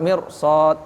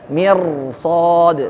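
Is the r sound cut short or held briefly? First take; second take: cut short; held briefly. First: The r is rushed and cut short. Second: The r is held with a slight echo. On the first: The speaker calls it wrong. "Bukan langsung cepat mirsad" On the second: The speaker calls it right. "Jadi r-nya itu ada. Jadi ada bainiyah dikit"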